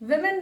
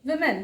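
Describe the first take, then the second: First: The first vowel sounds like i. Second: The first vowel sounds like i.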